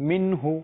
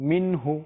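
Both takes have the same delivery.

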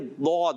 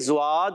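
First: The word begins with an emphatic d sound. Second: The word begins with a z sound. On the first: This is the Arabic pronunciation. The speaker calls it right. "عربی میں یہ زواد نہیں بلکہ ضاد ہے" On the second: This is the Persian and Urdu pronunciation. The speaker calls it wrong. "فارسی میں بھی زواد ہے"

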